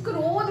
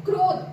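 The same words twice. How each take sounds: First: ਕ੍ਰੋਧ split with a vowel between ਕ and ਰ, as ka-rodh; wrong separated way. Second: ਕ੍ਰੋਧ said louder and higher with ਕ and ਰ fused into one cluster; right blended way. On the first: Teacher shows the wrong spelled-out ਕ੍ਰੋਧ, separated. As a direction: say ਕ੍ਰੋਧ the wrong way, syllables apart. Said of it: "ਅਸੀਂ ਕ੍ਰੋਧ ਨਹੀਂ ਬੋਲਦੇ". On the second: Teacher shows pupils the right mixed sound of ਕ੍ਰੋਧ, firmly. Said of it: "ਅਸੀਂ ਕੀ ਬੋਲਦੇ ਹਾਂ". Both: Shown as a demonstration.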